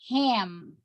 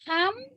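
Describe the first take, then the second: First: The vowel is said like an English vowel. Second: The vowel is said like a Spanish vowel. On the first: The speaker calls it right. "En inglés, esa vocal en esa palabra se pronuncia ham" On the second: The speaker calls it wrong. "porque está pronunciando esa vocal en español"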